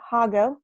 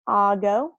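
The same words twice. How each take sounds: First: The word starts with an h sound. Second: The word starts without an h sound. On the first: The speaker calls it wrong. "not hago" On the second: The speaker calls it right. "the yo form is hago"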